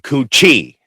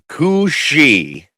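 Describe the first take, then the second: First: The middle consonant is a sharp 'ch' sound. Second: The middle consonant is a soft 'sh' sound. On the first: The speaker calls it wrong. "I've been calling it the Kuchi" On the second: The speaker calls it right. "pronounced C O O S H E E. Pronounce that's the pronunciation"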